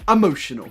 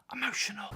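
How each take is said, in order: First: Said in the usual way. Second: Much softer, hushed and dramatic; whisper-soft "Emotional." like a sad trailer voice; mock emotional hush. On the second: Shown as a demonstration. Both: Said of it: "put the emotion that they want you to feel".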